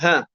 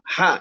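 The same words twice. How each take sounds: First: The h is a plain Indonesian h. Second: The h is the Arabic throat sound. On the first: The speaker calls it wrong. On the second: The speaker calls it right.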